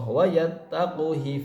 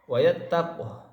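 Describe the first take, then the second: First: The final h is followed by an i vowel. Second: The word ends on a bare h sound. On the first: The reader continues into the next words. "namun jika wasol harus dibaca haknya ... kasroh" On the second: The reader stops after this word. "Jadi kalau misalkan wakaf"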